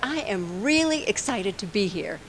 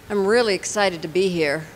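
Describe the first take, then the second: First: It is said in a lively, enthusiastic tone. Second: It is said in a flat, unenthusiastic tone. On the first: The words match the feeling behind them. The speaker calls it right. "it sort of goes together" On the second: The words do not match the feeling behind them. The speaker calls it wrong. "it doesn't match. So it's not authentic"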